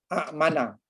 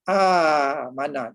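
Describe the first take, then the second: First: A glottal catch follows a short first vowel. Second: The first vowel is drawn out long. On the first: The speaker calls it wrong. "payah nak sebut dan tak sedap disebut" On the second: The speaker calls it right.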